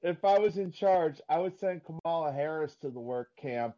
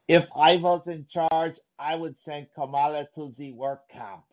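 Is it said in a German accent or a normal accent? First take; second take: normal; German. First: It is said in the speaker's normal accent. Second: It is said in a fake German accent.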